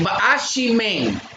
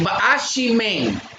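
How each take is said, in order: First: The middle consonant is an sh sound. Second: The same.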